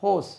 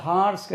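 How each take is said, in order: First: ஹோஸ் with rounded "o", no r; teacher models ஹோஸ், long o, falling; correct pronunciation. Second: ஹார்ஸ் with an open "aa" and sounded r; teacher's counterexample ஹார்ஸ், broad "aa" vowel; wrong pronunciation. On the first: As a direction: say ஹோஸ் as "hohs". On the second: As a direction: say ஹார்ஸ் as "haars". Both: Shown as a demonstration. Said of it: "அது ஹார்ஸ் கிடையாது பாருங்க".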